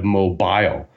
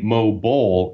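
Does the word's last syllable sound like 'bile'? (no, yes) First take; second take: yes; no. First: The last syllable sounds like 'bile'. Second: The last syllable does not sound like 'bile'. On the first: The speaker calls it right. "like bile that is produced by the liver" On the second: The speaker calls it wrong. "You seem to say mobile"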